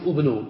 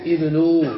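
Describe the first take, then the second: First: "ابنوا" said ubnu, with a u vowel opening the word; the wrong reading of "ابنوا", starting with u; "ابنوا" as ubnu, the form to avoid. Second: "ابنوا" said ibnu, with an i vowel opening the word; the correct reading of "ابنوا", starting with i; "ابنوا" as ibnu, firmly and a touch louder; correct form with i. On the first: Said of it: "فلا نقول". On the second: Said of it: "وإنما نقول". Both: Shown as a demonstration.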